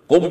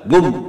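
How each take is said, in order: First: It starts with a k-like sound. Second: It starts with a g sound, modern Arab style.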